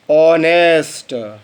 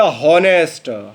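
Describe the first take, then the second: First: ऑनेस्ट said slowly, opening straight on the vowel ऑ; correct silent h. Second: हॉनेस्ट with a voiced h at the start; teacher says हॉनेस्ट beginning with हा; wrong h sound. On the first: Teacher models the right ऑनेस्ट for students, slow. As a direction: draw out ऑनेस्ट with no h sound. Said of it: "आपको उच्चारण करना था". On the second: Teacher demonstrates the student's wrong हॉनेस्ट with h. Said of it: "आपने उच्चारण किया हॉनेस्ट". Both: Shown as a demonstration.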